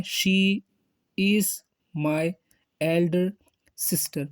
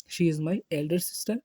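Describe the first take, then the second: First: "She", "is", "my", "elder", "sister" each said alone with a pause between; word by word. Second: Slow, even model sentence; slow demo. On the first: Teacher showing Hindi readers the pronunciation, word by word. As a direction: give every word its own beat. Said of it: "Hindi में इसका pronunciation है". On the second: Teacher modelling how to introduce an elder sister, slow. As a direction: say it slowly and clearly. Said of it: "इसी तरीके से ये मेरी दीदी हैं". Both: Shown as a demonstration.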